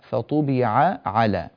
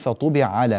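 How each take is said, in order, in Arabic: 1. تُنطق العينان كل واحدة على حدة. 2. تُدغم العينان في عين واحدة. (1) "فطبع على بهذه الطريقة" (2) "ولا ندغم العينين في بعضهما فنقول فطبع على مثلا"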